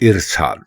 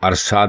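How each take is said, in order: First: The word begins with an 'i' vowel. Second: The word begins with an 'a' vowel. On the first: The speaker calls it right. "बल्कि इरसाल" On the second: The speaker calls it wrong. "अरसाल नहीं"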